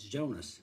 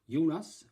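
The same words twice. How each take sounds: First: The name is pronounced with English sounds. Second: The name is pronounced with Swedish sounds. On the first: "the pronunciation in English, I guess, is" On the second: "should I say it in Swedish"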